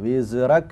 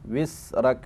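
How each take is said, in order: First: The middle consonant bounces with an echo. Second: The middle consonant is a hissing s. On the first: "കൽക്കലത്തോടു കൂടെ ഉച്ചരിക്കാൻ പാടില്ല" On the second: "സീനായി പോവരുത്"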